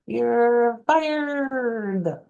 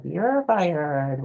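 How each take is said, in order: First: High, rolled-R "You're fired"; boss from The Cat in the Hat. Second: "You're fired" with a bunch of trilled R's; rolled R's. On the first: Retold or imitated. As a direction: fire them like the little boss. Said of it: "he says it like this". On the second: Shown as a demonstration. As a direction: roll the R in "fired". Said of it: "with a bunch of R's".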